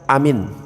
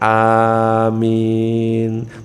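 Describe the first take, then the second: First: Both vowels in the word are short. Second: The vowels in the word are drawn out long. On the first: It means safe. The speaker calls it wrong. "A-nya pendek, minnya juga pendek, maka artinya aman" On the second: It asks for the prayer to be granted. The speaker calls it right. "Harusnya amin"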